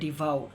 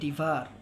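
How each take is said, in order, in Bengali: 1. শব্দটি ow ধ্বনি দিয়ে শেষ হয়। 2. শব্দটি er ধ্বনি দিয়ে শেষ হয়। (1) "অনেকে এটা উচ্চারণ করে ডিভাউ, সেটা কিন্তু একটি ভুল উচ্চারণ" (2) "উচ্চারণটি হবে ডিভার"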